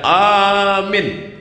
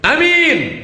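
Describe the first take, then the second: First: The first vowel is long. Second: The first vowel is short. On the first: It means believe. "Kalau A-nya panjang" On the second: It means honest.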